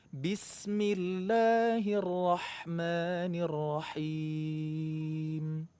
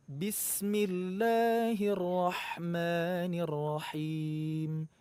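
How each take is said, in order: Both takes have the same delivery.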